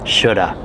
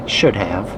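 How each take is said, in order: First: It is reduced to one contracted word. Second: Both words are said fully and separately. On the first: "this is the informal contraction of should and have" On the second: "So you could say should have"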